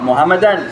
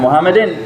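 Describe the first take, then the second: First: The word ends in an. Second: The word ends in in.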